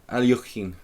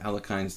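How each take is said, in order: First: The name is given a Russian-style pronunciation. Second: The name is given an American-style pronunciation. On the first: The speaker calls it right. "the true Russian pronunciation" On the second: The speaker calls it wrong. "I try to sound American"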